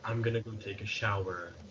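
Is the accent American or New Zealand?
American. It is said in an American accent.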